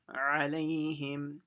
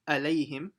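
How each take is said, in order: First: The word begins with a tight throaty ain sound. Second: The word begins with a plain glottal stop. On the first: The speaker calls it right. "It's ain" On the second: The speaker calls it wrong. "it's not alayhim with a hamza"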